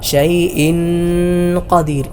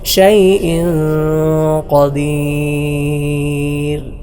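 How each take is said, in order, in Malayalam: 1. n പൂർണ്ണമായും വ്യക്തമായും ഉച്ചരിക്കുന്നു. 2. n മൂക്കിലെ മൂളലോടെ മറച്ചാണ് ഉച്ചരിക്കുന്നത്. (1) "ഒരുപാട് ആൾക്കാർ ഓതാറുള്ളത്" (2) "ശരിയായ രൂപം"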